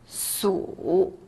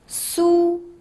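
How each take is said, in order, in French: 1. Le ton descend bas puis remonte. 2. Le ton reste haut et plat.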